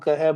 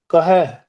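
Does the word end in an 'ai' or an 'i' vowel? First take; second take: i; ai. First: The word ends in a short 'i' vowel. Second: The word ends in an 'ai' vowel. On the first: The speaker calls it wrong. "99% ਜਿਹੜੇ ਆ ਇਹਨੂੰ ਕਹਿ ਬੋਲਦੇ ਆ, ਉਹ ਗਲਤ ਉਚਾਰਨ ਆ" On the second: The speaker calls it right. "ਕੱਕਾ ਮੁਕਤਾ ਰੱਖ ਕੇ ਇਦਾਂ ਦਾ ਇਦਾਂ ਹੀ ਉਚਾਰਨ ਕੀਤਾ ਜਾ ਸਕਦਾ"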